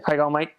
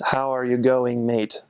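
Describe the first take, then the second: First: The words are run together Australian-style. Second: Each word is said fully and separately.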